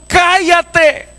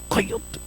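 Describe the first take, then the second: First: High, drawn-out order to be silent; crowd's shouted rebuke. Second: Very soft, voiceless order; imitated parent's hushed scolding; whispered hushing. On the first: Acted. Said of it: "cuando el ciego le dijeron". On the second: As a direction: whisper a secret command to a child. Father hushing child in church.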